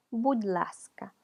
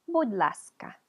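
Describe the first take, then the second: First: «будь ласка» whispered very slowly. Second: Said in the usual way. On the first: Shown as a demonstration. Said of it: "repeats the word, whispered and slow". («будь ласка» susurrado y muy lento) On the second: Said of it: "cambia un poquito el sonido de la D".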